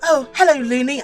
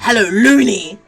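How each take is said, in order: First: Looney is said plainly, without emphasis. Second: Looney is said with strong emphasis.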